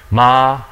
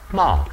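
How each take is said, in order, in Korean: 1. 음높이가 높은 상태로 평평하게 유지됩니다. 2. 음높이가 높은 데서 낮게 급격히 떨어집니다.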